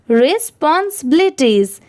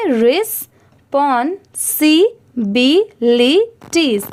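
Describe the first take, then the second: First: Said in the usual way. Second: Each syllable of respawn सी बी ली said slowly and held apart. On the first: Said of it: "मिलाकर पढ़ेंगे". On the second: Shown as a demonstration. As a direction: break the word into slow separate syllables, respawn, सी, बी, ली. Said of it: "अब इसे धीरे धीरे मिलाकर पढ़ेंगे".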